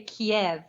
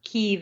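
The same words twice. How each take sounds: First: KIEV said the Russian way, two syllables kee-EV; Russian pronunciation. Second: KYIV said the Ukrainian way, like KEEV; Ukrainian pronunciation. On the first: Guest explains the city's Russian name to the host, Russian pronunciation. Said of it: "that's the Russian pronunciation". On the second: Guest corrects the host on the city's name, Ukrainian pronunciation. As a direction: say Kyiv as Ukrainians do, one long KEE sound. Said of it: "is the Ukrainian pronunciation". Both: Shown as a demonstration.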